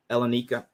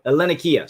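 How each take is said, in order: First: "Hellenica" tried hesitantly, ending in -ka; mispronounced attempt. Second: "Hellenikia" said with an -ee-kia ending; corrected "Hellenikia", more firmly voiced; modern Greek pronunciation. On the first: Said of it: "I'm gonna mispronounce it". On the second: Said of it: "is more the modern pronunciation". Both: Shown as a demonstration.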